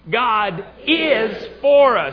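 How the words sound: The stress falls on the word 'is'. "This time is"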